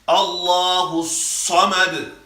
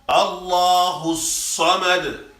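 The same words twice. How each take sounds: The two takes are said the same way.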